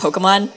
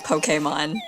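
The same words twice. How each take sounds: First: The word is said in a relaxed, casual way. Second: The word is said in a careful, standard way. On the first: This is how it is said in casual talk. "when I'm talking casually, it's just Pokemon" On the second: This is the official pronunciation. "the actual pronunciation is like Pokemon"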